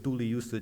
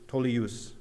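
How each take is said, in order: First: It is said as four separate Modern Chinese syllables. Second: It is said as a blended older form, like Tolius. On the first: "That's the modern Chinese uh, pronunciation" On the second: "In Middle Chinese, it would have been something like"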